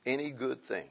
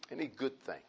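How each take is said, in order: First: Said in the usual way. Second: Repeated much softer, almost to himself; soft echo. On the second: Shown as a demonstration. Pastor echoing the verse to the congregation, soft. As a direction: let it fall away quietly.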